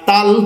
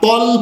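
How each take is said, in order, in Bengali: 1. স্বরধ্বনিটি একটি খোলা, পাতলা 'aa' ধ্বনি। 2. স্বরধ্বনিটি একটি ভারী, গোল 'o' ধ্বনি। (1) "তাল পড়া যাবে না" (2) "তল পড়তে হবে"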